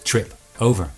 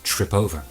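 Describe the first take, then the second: First: The two words are said separately. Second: The two words blend into one unit.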